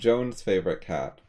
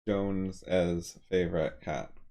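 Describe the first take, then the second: First: Jones is said with no extra syllable. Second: Jones is followed by an extra 'es' syllable. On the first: The possessive is not heard. The speaker calls it wrong. "if you just said Jones' favorite cat, um, it would be confusing" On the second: The possessive is clearly heard. The speaker calls it right. "you need to add the es so that people can tell there's a possessive there"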